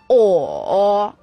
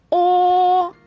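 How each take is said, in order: First: The pitch dips low then comes up. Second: The pitch stays high and level. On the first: "三声拐弯" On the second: "一声平"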